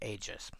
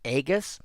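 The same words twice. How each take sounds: First: The G is pronounced as a soft sound. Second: The G is pronounced as a hard sound. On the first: The speaker calls it wrong. "Most people will probably pronounce it Aegis. It feels wrong to me" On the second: The speaker calls it right. "I pronounce with a hard G"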